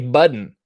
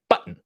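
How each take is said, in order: First: The middle consonant is said as a D. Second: The middle consonant is not said as a D. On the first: Other people say it this way. "some people who say button with a D" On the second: The speaker says it this way. "I say button"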